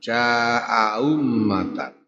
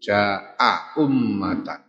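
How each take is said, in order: First: The second glottal stop is softened toward w. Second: Both glottal stops are pronounced clearly. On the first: "disuarakan dengan bunyi yang ringan antara hamzah dengan wawu" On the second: "bitahqiqil hamzataini kelawan nyataake hamzah loro ... Cetok"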